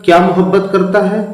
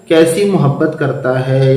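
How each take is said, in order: First: क्या मोहब्बत करता है said quick and higher, as a literal gloss; teacher gives the literal rendering before correcting it, quick and higher; word for word translation. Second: Said in the usual way. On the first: Shown as a demonstration. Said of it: "Urdu में इसको ऐसे नहीं बोलते". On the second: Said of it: "बल्कि क्या बोलते हैं".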